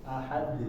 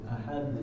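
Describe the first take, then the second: The two takes are said the same way.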